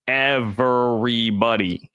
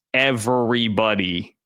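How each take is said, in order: First: "everybody" slow, each syllable hit: ev-ery-bo-dy; every syllable stressed. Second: Said in the usual way. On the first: Shown as a demonstration. Host hammering his point to viewers, "everybody" slowly stressed syllable by syllable. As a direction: drag out "everybody" one syllable at a time. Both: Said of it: "emphasis on every syllable there".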